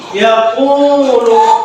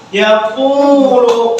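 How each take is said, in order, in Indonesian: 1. Vokal tengahnya dibaca dua harkat. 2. Vokal tengahnya dibaca dua harkat.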